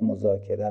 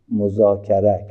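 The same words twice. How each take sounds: First: The final syllables use an 'e' vowel. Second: The final syllables use an 'a' vowel. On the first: The speaker calls it wrong. "که ما به غلط مذاکره میگیم" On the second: The speaker calls it right. "مصدر باب مفاعله مفاعل است"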